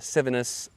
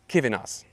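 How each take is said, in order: First: The name begins with an S sound. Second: The name begins with a K sound. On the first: The speaker calls it wrong. "That's not that's not uh" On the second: The speaker calls it right. "the letter C always says the K sound"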